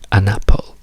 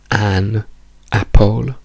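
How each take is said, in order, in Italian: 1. L'articolo si riduce a uno schwa. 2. L'articolo ha una vocale piena, all'italiana. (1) "diciamo semplicemente un" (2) "non diciamo an apple"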